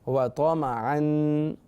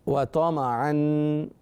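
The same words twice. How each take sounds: No difference in how they are said.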